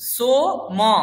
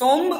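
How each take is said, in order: First: The word ends with a full vowel after m. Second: The word ends on the consonant m. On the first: The speaker calls it right. "মকার পুরো ম, ময়ের পরে অ আছে" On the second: The speaker calls it wrong. "সোম বলবো না"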